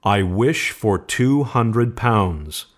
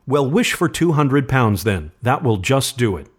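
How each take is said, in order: First: Slow, clearly separated words; distinct. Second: Higher-pitched, easy offhand prompting; casual suggestion. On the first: Old man making his wish aloud, distinctly. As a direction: pronounce the wish deliberately, word by word. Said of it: "said the old man distinctly". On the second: Son urging his father to make a wish, casually. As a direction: toss it out as a light suggestion. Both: A narrator's reading.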